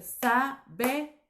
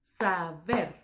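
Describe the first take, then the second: First: "saber" broken as sa - be - rrr; división incorrecta. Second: "Saber" in two beats, sa - ber; división silábica correcta. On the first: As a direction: leave a lone trilled r after "saber" split sa, be. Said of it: "no podría ser". ("saber" partido en sa - be - r, con la r suelta) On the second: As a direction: keep the r on ber: "Saber" as sa, pause, ber. ("Saber" separado en sa - ber) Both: Shown as a demonstration.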